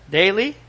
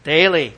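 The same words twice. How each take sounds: First: Daily? with a questioning rise at the end; asking tune. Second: Daily. falling and louder, settling the answer; firm answer. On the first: Preacher quizzing the congregation with a rising question. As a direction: toss Daily? out as a question to the room. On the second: Preacher answering his own question with a firm fall. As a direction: land Daily. as the final word. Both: Shown as a demonstration. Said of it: "he says what?".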